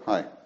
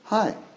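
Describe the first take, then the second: First: The greeting sounds curt and indifferent. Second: The greeting sounds warm and friendly.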